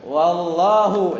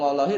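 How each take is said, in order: First: The word ends with a 'u' vowel. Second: The word ends with an 'i' vowel. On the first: It is not an oath, only 'and God'. "wallahu marfu nggak jadi sumpah" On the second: It is a binding oath. "biasanya tuh ujung-ujungnya kasroh"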